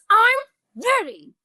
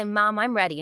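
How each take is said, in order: First: Put-on high, drawn-out angry kid yell; angry child. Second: Said in the usual way. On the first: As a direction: act out a mad son forcing the words out. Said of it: "your son is angry". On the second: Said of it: "when you can say".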